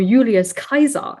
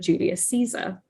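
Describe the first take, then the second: First: Julius begins with a Y sound. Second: Julius begins with a J sound. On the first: This is the classical restored Latin pronunciation. "the I consonant, later the letter J, sounded like a Y" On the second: This is the church Latin pronunciation. "instead of Julius Caesar"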